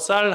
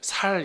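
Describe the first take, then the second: First: The first s sound is tense and strong. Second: The first s sound is plain and soft. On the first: The speaker calls it right. "우리는 쌀 발음 되는데" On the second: The speaker calls it wrong. "살 이렇게 하시더라고"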